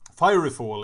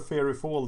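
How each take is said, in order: First: The first word sounds like 'fiery'. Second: The first word sounds like 'fairy'. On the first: The speaker calls it right. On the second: The speaker calls it wrong.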